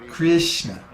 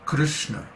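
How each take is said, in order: First: The R is followed by a clear i vowel. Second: The R is said with no i vowel. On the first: The speaker calls it wrong. "there's no Krishna. There's no I sound in Krishna" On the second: The speaker calls it right. "It's Krishna"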